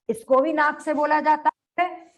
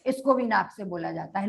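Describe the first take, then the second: First: Said in the usual way. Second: Quicker and softer repeat of the dictated line; hurried quiet repetition for the class. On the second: Shown as a demonstration. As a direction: rattle off the repeat, lower and softer. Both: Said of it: "इसका उच्चारण लिखो".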